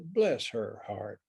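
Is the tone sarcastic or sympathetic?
sympathetic. It sounds warm and genuinely sympathetic. The person is pitied for their suffering. "if somebody is sick and in the hospital"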